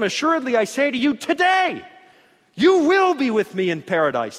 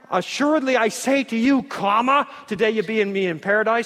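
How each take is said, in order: First: The pause falls after the word today. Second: The pause falls before the word today.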